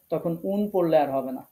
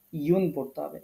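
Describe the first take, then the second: First: Said in the usual way. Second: ইউন said as yun, not উন; yun ending. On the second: Shown as a demonstration. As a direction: stress the ইউন clearly. (ইউন উচ্চারণ)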